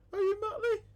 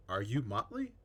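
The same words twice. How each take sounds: First: Very high, squeaky, louder question. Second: Said in the usual way. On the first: Acted. Child asking the Pirate King, in a squeaky high voice.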